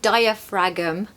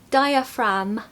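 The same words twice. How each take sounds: First: The ending is said as spelled, like 'fragm'. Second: The ending is said like 'fram' without g. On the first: The speaker calls it wrong. "It looks like diaphragm" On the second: The speaker calls it right. "but it's actually diaphragm, fram"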